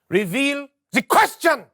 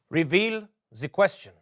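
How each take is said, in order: First: It is said with high energy. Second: It is said with low energy.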